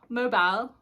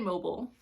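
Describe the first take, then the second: First: It is said in the other accent, ending like 'bile'. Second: It is said in the speaker's own accent.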